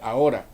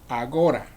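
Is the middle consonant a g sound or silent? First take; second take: silent; g sound. First: No consonant is heard in the middle. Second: A hard g sound is heard in the middle. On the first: The modern form used today. "por decir ahora" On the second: An older form once used by grandparents. "decían agora"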